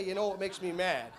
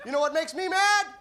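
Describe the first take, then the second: First: Said in the usual way. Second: High, loud shout with a laugh; comic setting up the crowd call. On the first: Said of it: "When I say". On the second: Shown as a demonstration. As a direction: bark out the question. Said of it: "let's have some fun with this".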